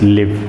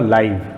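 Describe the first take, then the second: First: The vowel is the short 'ih' sound. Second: The vowel is the long 'eye' sound. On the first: It refers to residing somewhere. "रहने या बसने के context में" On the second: It refers to broadcasting in real time. "ब्रॉडकास्ट हो रहा है लाइव, वहाँ पर इसका प्रोनाउंसिएशन"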